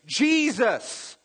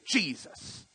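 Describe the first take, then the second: First: Sincere calling out. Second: Annoyed curse. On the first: A hurting believer calling on Jesus, earnest high plea. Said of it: "and you can say". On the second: Someone angered using the name, softer irritated oath. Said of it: "when something makes you mad". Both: Shown as a demonstration.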